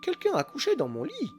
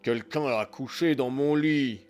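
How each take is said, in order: First: It is said in a medium voice. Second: It is growled in a big voice.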